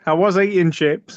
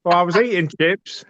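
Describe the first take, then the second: First: Northern Irish accent, chips said "sheps". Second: Said in the usual way. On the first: Shown as a demonstration. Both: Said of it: "I'm trying to do a Northern Irish accent".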